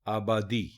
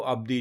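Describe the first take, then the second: First: A short a vowel follows the b. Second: No vowel is heard right after the b. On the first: The speaker calls it right. "दुरुस्त लफ्ज है आबादी, यानी जबर है अलिफ के ऊपर भी और जबर है बे के ऊपर भी" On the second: The speaker calls it wrong. "ये गलत है।"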